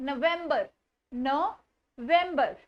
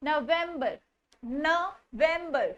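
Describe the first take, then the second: The two takes are said the same way.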